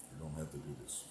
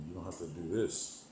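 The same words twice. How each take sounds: First: Lower, much softer, heavy Vader-like delivery; a light imitation of Darth Vader's calm menace. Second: Said in the usual way. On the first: Streamer repeats the line for chat as a mild Darth Vader. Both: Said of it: "that Darth Vader thing was a hit".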